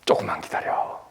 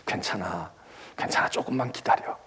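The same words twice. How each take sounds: First: Whispered comfort, softer; whispered 조금만 기다려 as a tender promise. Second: Whispered comfort, softer; whispered 조금만 기다려 as gentle consolation. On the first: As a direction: lean in and breathe hope. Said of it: "희망을 불어넣어준다 이거예요". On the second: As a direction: breathe the reassurance to someone worn out. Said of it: "감싸주고 희망을 심어주고". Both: Acted.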